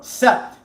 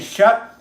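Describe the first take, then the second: First: The word starts with an s sound. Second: The word starts with a sh sound. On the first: The speaker calls it wrong. "I would go set" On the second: The speaker calls it right. "instead of saying shut"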